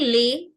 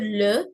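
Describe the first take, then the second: First: The vowel sounds like an 'ay' sound. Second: The vowel is a plain 'e' sound. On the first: The speaker calls it wrong. "I'm not saying lay" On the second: The speaker calls it right. "The sound is a standard le"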